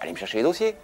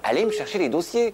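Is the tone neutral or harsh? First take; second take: neutral; harsh. First: It is said in a neutral, ordinary tone. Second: It is said in a harsh, contemptuous tone.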